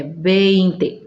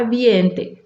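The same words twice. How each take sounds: First: "vinte" said as Spanish VEIN-te, E before I; correct pronunciation. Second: "ambiente" cut to VIEN-te, with an i-e glide; wrong pronunciation. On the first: Teacher correcting learners after the wrong example, correct pronunciation. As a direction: clear e-to-i glide in "vinte": VEIN-te. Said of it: "Não pode falar ambiente, é". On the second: Teacher warning learners against the I-E glide, wrong pronunciation. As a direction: say "ambiente" as mistaken Spanish VIEN-te, I before E. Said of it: "Não pode falar". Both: Shown as a demonstration.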